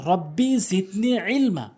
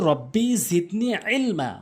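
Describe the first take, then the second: The two takes are said the same way.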